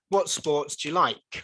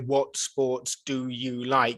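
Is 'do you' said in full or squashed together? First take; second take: squashed; in full. First: 'Do you' is squashed together into 'dia'. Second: Each word of 'do you' is said in full.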